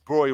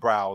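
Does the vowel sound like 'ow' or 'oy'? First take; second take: oy; ow. First: The vowel sounds like 'oy'. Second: The vowel sounds like 'ow'. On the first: The speaker calls it right. "it's Broy rather than Brow" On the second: The speaker calls it wrong. "everyone says Brow"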